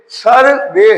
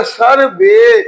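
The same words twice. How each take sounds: First: Said in the usual way. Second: सर बे drawn out very slowly, syllable by syllable; teacher stretching सर बे slowly into two syllables; slow syllable split. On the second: Shown as a demonstration. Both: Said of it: "long sound देगा".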